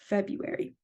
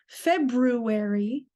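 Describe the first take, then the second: First: The first R is left silent. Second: The first R is clearly pronounced. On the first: The speaker calls it right. "The R here is silent. So ... we say February" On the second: The speaker calls it wrong. "we don't say February"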